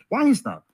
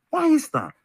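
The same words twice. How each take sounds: First: Said in the usual way. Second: "Why is that?" asked much higher and pointed; pressing harder. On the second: Real, not acted. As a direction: push the repeat up high to demand an answer. Repeats the question, pressing harder.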